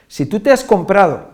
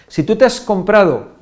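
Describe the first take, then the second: No difference in how they are said.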